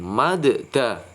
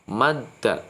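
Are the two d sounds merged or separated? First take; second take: separated; merged. First: The two d sounds are pronounced separately. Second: The two d sounds merge into one. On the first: The speaker calls it wrong. "Bukan madda" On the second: The speaker calls it right. "tapi bacanya adalah madda"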